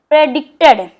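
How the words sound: The syllables are blended smoothly into one word. "जोड़ के पढ़िए"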